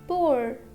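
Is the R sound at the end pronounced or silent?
pronounced. The final R sound is clearly pronounced. This is the American English form. "and here"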